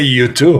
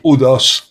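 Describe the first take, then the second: First: It is said like English 'you two'. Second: It is said like Spanish 'oo-dos'. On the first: "We don't say you too" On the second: "We say udos"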